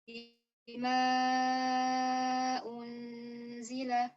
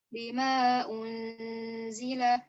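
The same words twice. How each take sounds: First: The long vowel is held for four counts. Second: The long vowel is held for two counts. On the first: "Untuk wajah at-tawassut, empat harokat" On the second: "untuk wajah al-qasr"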